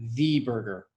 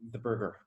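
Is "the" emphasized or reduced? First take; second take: emphasized; reduced. First: The word "the" is stressed and full. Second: The word "the" is short and reduced. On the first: "unless you're being emphatic" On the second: "these reduce your schwa"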